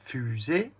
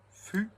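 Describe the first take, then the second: First: Said in the usual way. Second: "Fu-zée" as two isolated syllables, long pause between. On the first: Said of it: "compte les syllabes". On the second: Shown as a demonstration. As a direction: count out "Fu-zée" one beat at a time. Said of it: "Deux syllabes". (« Fu-zée » découpé en deux syllabes bien séparées)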